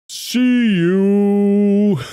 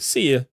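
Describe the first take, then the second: First: The words are drawn out very slowly. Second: The words are said at normal speed.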